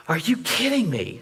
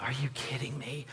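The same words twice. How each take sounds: First: "Are you kidding me?" pitched high, stress on kidding; incredulous, voice jumping up on "kidding"; voiced high exasperation at the professor; exasperated disbelief. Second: Whispered "Are you kidding me?" under the breath, no voice; a hushed, unvoiced groan of disbelief; whispering "Are you kidding me?" alone in the car. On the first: Professor refuses to see video. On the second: Seeing police lights ahead.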